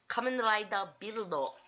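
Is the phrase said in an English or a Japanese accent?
Japanese. It is said in a Japanese accent. The listener understands it. The speaker calls it right.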